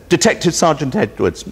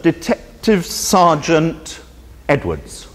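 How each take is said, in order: First: Said in the usual way. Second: Bored phone answer. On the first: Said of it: "And he says". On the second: Retold or imitated. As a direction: answer the phone like a weary detective. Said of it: "The phone is answered".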